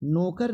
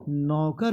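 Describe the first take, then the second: First: नौकर said as "nokar"; wrong pronunciation. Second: नौकर said as "naukar"; wide au in नौकर; correct pronunciation. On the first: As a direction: narrow o in नौकर. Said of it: "नौकर नहीं होता है". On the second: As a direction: open the first vowel of नौकर. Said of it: "नौकर होता है". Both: Shown as a demonstration.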